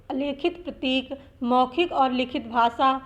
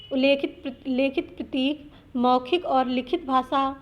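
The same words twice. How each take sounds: The two takes are said the same way.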